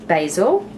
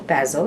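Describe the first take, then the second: First: It is pronounced the North American way. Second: It is pronounced the Australian way.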